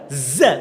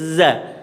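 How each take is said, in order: First: The tongue touches behind the teeth, at the gums. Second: The tongue tip sits between the upper and lower teeth. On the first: The speaker calls it wrong. "za kurang tepat" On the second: The speaker calls it right. "Yang betul za"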